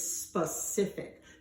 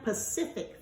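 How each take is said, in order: First: The word begins with an s sound. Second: The word begins without an s sound. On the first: The speaker calls it right. "it's specific" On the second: The speaker calls it wrong. "We don't say Pacific fact"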